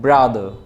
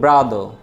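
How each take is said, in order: First: The final r sound is dropped. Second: The final r sound is dropped.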